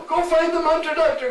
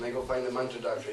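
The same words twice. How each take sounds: First: High, loud, frantic order; panicked urging. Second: Said in the usual way. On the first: Acted. Jatila urges the household to fetch the mantra doctor, high and loud. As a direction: send them off in a shrill panic.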